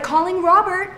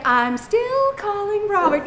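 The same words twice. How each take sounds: First: High, even automated announcement; lightly voiced phone assistant. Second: Slow, high sing-song taunt; drawn-out mocking sing-song; taunting phone. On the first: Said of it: "It's like". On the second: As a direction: tease it out like a smug phone. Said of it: "then it gets an attitude".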